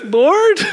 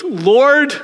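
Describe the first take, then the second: First: A hammed-up desperate call to God; exasperated plea. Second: High, louder cry of Lord; a mock exasperated call to God; exasperated plea. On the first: Ananias protesting to God, a very high pleading Lord. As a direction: Lord pitched very high and louder. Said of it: "Ananias prays like this". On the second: Ananias protesting to God, a high exasperated Lord. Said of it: "Ananias prays like we do".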